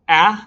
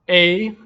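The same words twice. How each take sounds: First: The vowel sounds as in apple. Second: The vowel sounds as in table. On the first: "like apple" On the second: "like table"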